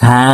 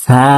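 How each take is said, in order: Both takes have the same delivery.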